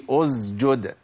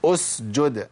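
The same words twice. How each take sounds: First: أسجد slowly as "uzjud"; the slip to avoid, voiced z before j in أسجد; wrong z. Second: أسجد as "usjud"; breath running through the sīn of أسجد; clear s. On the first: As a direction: buzz the s of أسجد into a z. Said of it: "ما قولش". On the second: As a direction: hiss a voiceless s before the j in أسجد. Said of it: "ما قولش أسجد". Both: Shown as a demonstration.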